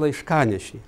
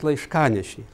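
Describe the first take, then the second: First: The stress falls on the connecting vowel syllable. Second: The stress falls on the connecting vowel syllable.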